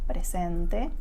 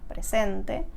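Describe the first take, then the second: No difference in how they are said.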